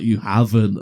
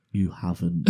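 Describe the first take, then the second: First: Louder, insistent imitation of mum; insistent mock disbelief. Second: Understated, slightly low disbelief; mock disbelief. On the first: Mum hearing her son confess, louder disbelief. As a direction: repeat it louder, refusing to believe it. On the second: Mum realising her son's accident, understated disbelief. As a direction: say it evenly, as a stunned mum. Mum's first reaction to accident.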